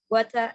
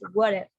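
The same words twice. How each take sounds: First: It is said in a British accent. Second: It is said in an American accent.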